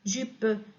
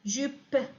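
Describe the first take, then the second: First: The word ends with a vowel after p. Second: The word ends abruptly on a bare p. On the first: The speaker calls it wrong. "ما كنقولوش" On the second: The speaker calls it right. "في الأخير كنوقفوا كنقولوا ب"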